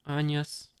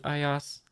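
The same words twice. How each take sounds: First: "Anyas" said as AHN-yus, with an n; alternative pronunciation. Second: "Ayas" said as eye-AHS, without an n; unsure pronunciation. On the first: Reader trying another version of a character's name, alternative pronunciation. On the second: Reader trying out a character's name, unsure pronunciation. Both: Shown as a demonstration. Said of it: "I don't know how to pronounce it".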